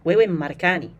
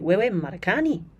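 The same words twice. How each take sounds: First: The voice stays level at the end. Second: The voice rises at the end.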